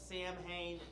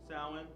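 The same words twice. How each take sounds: First: It is said as spelled, like Sam-hain. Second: It is said like sow-in, without the m. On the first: This is the speaker's habitual way of saying it. The speaker calls it wrong. "I call it Samhain" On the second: This is the actual pronunciation. The speaker calls it right. "I think it's actually pronounced Samhain"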